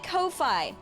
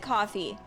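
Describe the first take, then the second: First: The second syllable rhymes with 'fly'. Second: The second syllable rhymes with 'fee'. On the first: "That is literally Ko-Fi" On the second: "supposed to be pronounced it coffee"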